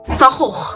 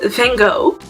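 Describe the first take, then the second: First: It is said with a throaty Dutch g sound. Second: It is said with a foreign pronunciation. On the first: The speaker calls it right. "That's how you should pronounce it" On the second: The speaker calls it wrong. "foreign people pronounce it like this"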